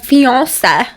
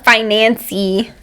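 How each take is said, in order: First: The word is said without an extra n sound. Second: The word is said with an extra n sound. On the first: The speaker calls it right. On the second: The speaker calls it wrong.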